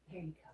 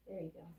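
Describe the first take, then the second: First: Whispered, breathy and unvoiced. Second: Said in the usual way. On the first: Shown as a demonstration. Whispered repeat.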